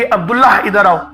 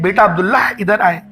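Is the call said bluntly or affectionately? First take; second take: bluntly; affectionately. First: The name is called bluntly, without warmth. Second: The name is called warmly, with affection.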